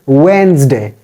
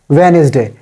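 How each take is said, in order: First: The middle E sound is left out. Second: The middle E sound is pronounced. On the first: The speaker calls it right. "E is silent here" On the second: The speaker calls it wrong. "We say it's Wednesday"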